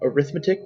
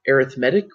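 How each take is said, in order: First: It is pronounced the way the noun is. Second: It is pronounced the way the adjective is. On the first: It names the branch of mathematics. "would be the noun" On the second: It describes something as arithmetic-like. "would be an adjective that means arithmetic-like"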